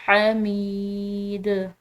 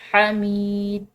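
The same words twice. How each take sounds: First: The final d is released with a slight bounce. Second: The final d stops dead with no echo. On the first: The speaker calls it right. "इस पर कलकला करते हुए" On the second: The speaker calls it wrong. "बिल्कुल साकिन करके हमीद इस तरह करके इसको नहीं छोड़ना"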